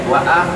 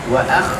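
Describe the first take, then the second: First: It has only a vowel, no raspy sound. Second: It ends with a raspy kh sound. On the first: The speaker calls it wrong. "tidak dibaca wa ah" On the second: The speaker calls it right. "Sifat huruf kha"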